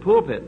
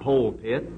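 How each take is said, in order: First: The first syllable sounds like 'pull'. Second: The first syllable sounds like 'pole'. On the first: The speaker calls it right. "your congregation would appreciate you more if you said pulpit" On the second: The speaker calls it wrong. "I noticed one mistake that you certainly made that you ought to correct"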